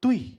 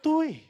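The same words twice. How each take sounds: First: It sounds like a calm, plain statement. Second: It sounds surprised, like an accusing question.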